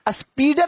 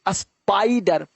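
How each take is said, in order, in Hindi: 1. पहला स्वर 'ee' जैसा लगता है। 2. पहला स्वर 'eye' जैसा लगता है। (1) "स्पीडर नहीं पढ़ते" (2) "आई को आई पढ़ते हो ना"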